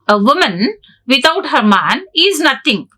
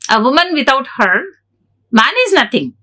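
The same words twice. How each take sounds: First: There is no pause after 'her'. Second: There is a pause after 'her'.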